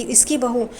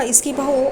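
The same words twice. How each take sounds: First: Said in the usual way. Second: Stunned repeat. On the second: A narrator's reading. Sudha realizing her friend's daughter-in-law, stunned. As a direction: hit इसकी बहू with sudden disbelief. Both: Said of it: "एकदम चौंक जाती है".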